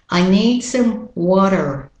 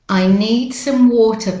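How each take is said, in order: First: Water is said in an American accent. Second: Water is said in a British-Australian accent.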